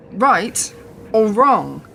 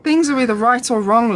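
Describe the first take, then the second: First: Right or wrong said very slowly, each word weighted, falling on wrong; slow emphasis. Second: Said in the usual way. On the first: Acted. Repeating her point to Lawrence, slow and weighted. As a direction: drag out Right or wrong with a heavy fall on wrong.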